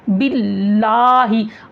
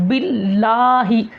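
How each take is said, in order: First: The vowel is open, with the mouth wide open. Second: The vowel is open, with the mouth wide open.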